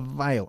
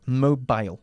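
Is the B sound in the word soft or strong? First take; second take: soft; strong. First: The B sound is soft and weak. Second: The B sound is strong and clear. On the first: The speaker calls it wrong. "No, estás diciendo mobile" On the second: The speaker calls it right. "La B, más fuerte"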